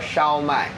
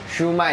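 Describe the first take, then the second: First: It is pronounced the Mandarin way, shao mai. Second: It is pronounced the Cantonese way, shu mai. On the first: "In Mandarin we call Shao Mai" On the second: "Shu Mai is a more Cantonese way of calling it"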